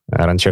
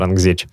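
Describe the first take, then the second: First: The name ends with a 'chekh' sound. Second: The name ends with a 'gzech' sound. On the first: This is how the local people say it. The speaker calls it right. "Ранчех, начали говорить парни" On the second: This is a reading based on the spelling. The speaker calls it wrong. "я называю это Рангзеч"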